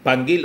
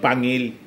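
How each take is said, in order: First: The middle has 'ng' followed by a hard g. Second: The middle has a plain 'ng' with no g. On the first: This is probably the correct reading of the name. The speaker calls it right. "Panggil yata ang basa nito" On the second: This reading makes the name mean fang. The speaker calls it wrong. "Masama kung Pangil"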